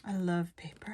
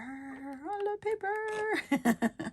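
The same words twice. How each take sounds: First: Said in the usual way. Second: Very high, slow, drawn-out squeal; delighted squeal. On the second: Real, not acted. Crafter declaring a love of paper, delighted squeal. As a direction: stretch it out high in giddy delight.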